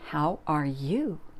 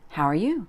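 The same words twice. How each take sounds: First: Each word is pronounced fully and separately. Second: The words run together in a reduced form.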